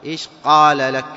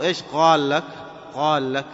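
First: "قال" with a hard, louder q stop; corrected qaf. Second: "قال" said as ghaal; qaf as ghayn. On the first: Teacher corrects the error, firm q in "قال". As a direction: hit a clean uvular q in "قال". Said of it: "قاء، فتنطقه قال". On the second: Teacher mimics some people's error, gh in "قال". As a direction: soften the q of "قال" into gh. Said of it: "ينطق أيضًا القاف غاء". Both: Shown as a demonstration.

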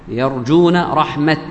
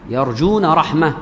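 First: Slow phrase, رحمة stopped on a final t; pausal t. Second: رحمة closed on a breathed h; pausal h. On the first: Teacher showing the majority's stop, رحمة ending in t. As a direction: end رحمة as rahmat, t released with no vowel. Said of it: "تقف عليها بالتاء". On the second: Teacher repeating the first group's stop, رحمة ending in h. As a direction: pause on رحمة with h replacing the t. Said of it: "وهو الهاء". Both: Shown as a demonstration.

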